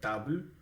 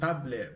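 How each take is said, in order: First: The L sound is softened, like palatalized. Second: The L sound is hard, not softened. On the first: The speaker calls it right. "Imagine that we use a softening sign in Russian" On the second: The speaker calls it wrong. "not table"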